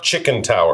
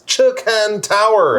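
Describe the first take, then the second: First: The first word sounds like 'chicken'. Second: The first word sounds like 'chee-kahn'. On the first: The speaker calls it wrong. "it's not Chicken Tower" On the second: The speaker calls it right. "Am mm, I saying that right?"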